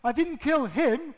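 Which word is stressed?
him. The stress is on "him".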